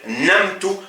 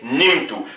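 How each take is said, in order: First: The first vowel is an 'a' sound. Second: The first vowel is an 'i' sound. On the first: The speaker calls it wrong. "On va pas dire namtu" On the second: The speaker calls it right. "mais on va dire nimtu"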